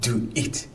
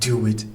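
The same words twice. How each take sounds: First: The two words are separate, with no w sound. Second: A w sound joins the two words together. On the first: The speaker calls it wrong. "Not do it. ... it's not very natural" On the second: The speaker calls it right. "But then together"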